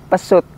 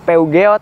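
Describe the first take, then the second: First: The name is said like the word pesut. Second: The name is read out the way it is spelled. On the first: "kalau orang-orang dulu malah nyebutnya Pesut" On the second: "banyak orang yang mengira tuh bacaannya Peugeot"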